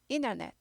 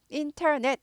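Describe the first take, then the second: First: The t in the middle is weakened. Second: The t in the middle is fully pronounced. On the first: The speaker calls it right. "약화돼요" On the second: The speaker calls it wrong. "인터넷 하지 않고"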